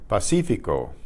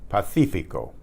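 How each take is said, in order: The two takes are said the same way.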